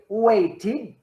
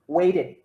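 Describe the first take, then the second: First: The middle consonant is a clear t sound. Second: The middle consonant sounds like a d. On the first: "the conservative pronunciation" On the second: "the way people speak in Canada"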